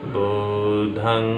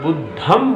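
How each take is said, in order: First: The word ends with a nasal ng sound. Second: The word ends with a closed m sound. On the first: It is the Pali form. The speaker calls it right. "पाली में अंग की बिंदी अंग का ही उच्चारण करती है" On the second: It is the Sanskrit form. The speaker calls it wrong. "बहुत सारे उपासक जब बोलते हैं तो बुद्धम बोलते हैं"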